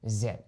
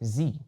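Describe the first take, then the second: First: The letter is named the British English way. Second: The letter is named the American English way. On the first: "Anglais britannique" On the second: "Anglais américain"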